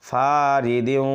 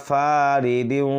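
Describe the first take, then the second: No difference in how they are said.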